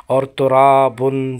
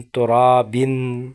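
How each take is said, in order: First: ترابن said slowly and louder, ending with a clear -un; recitation demo, -un ending. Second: ترابن stretched very slowly, ending with -bin instead of -bun; recitation demo, -in ending. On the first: Teacher contrasting endings for students, ترابن with -un. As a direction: stress ترابن and close on -bun. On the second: Teacher contrasting endings for students, ترابن with -in. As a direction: draw ترابن out and close on -bin. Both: Shown as a demonstration. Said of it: "اس کو صحیح تلفظ کرنا ہے".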